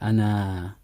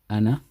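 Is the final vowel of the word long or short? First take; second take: long; short. First: The final vowel is drawn out long. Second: The final vowel is kept short. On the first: The speaker calls it wrong. "So we don't say Ana" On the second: The speaker calls it right. "The alif is written, but it's not read"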